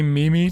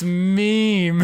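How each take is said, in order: First: It is said as two syllables, like me-me. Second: It is said as one syllable, rhyming with team. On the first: The speaker calls it wrong. "you see Mimi" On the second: The speaker calls it right. "oh, it's meme"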